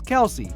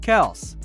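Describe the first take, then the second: First: The name is said as two syllables. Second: The name is said as one syllable. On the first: The speaker calls it wrong. "many of us often pronounce it as Kelsey" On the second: The speaker calls it right. "it is actually pronounced Kels"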